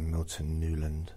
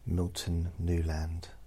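First: The last syllable has a reduced vowel, 'lund'. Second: The last syllable has a full 'a' vowel, 'land'.

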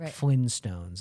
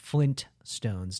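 First: No t sound is heard before 'stones'. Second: A t sound is heard before 'stones'. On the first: The speaker calls it wrong. "not Flintstones. I think people are just lazy" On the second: The speaker calls it right. "There are two T's. It's Flintstones"

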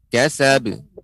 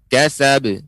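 Both takes have the same delivery.

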